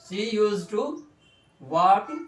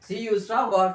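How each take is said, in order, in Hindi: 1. "Used to" पूरा बोला जाता है, दो साफ़ शब्द। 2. "Used to" छोटा करके और आपस में जोड़कर बोला जाता है।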